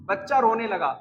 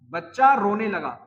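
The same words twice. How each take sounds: First: Said in the usual way. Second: बच्चा रोने लगा said slowly and evenly, word by word; slow dictation. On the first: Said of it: "teacher dictates example sentence". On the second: Shown as a demonstration. Teacher repeating the sentence for students to copy, slowly. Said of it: "teacher repeats slower for dictation".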